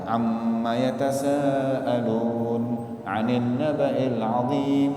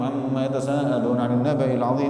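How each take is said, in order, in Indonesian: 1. Dibaca dengan lambat dan merata. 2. Dibaca dengan cepat dan tergesa-gesa. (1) "Itu sudah tartil" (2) "Nggak mungkin kita bisa tadabbur kalau bacanya kecepatan"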